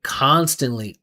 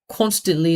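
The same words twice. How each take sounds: First: The first vowel is an open 'ah' sound. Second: The first vowel is a rounded 'oh' sound. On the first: The speaker calls it right. "Ah, like father" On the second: The speaker calls it wrong. "He said constantly instead of"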